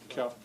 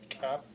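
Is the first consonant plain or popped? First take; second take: plain; popped. First: The first consonant is plain, like English. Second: The first consonant is hard and pops. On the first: The speaker calls it wrong. "In the English way, it doesn't sound right" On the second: The speaker calls it right. "It has to be cap, cap. You have to make a hard sound there"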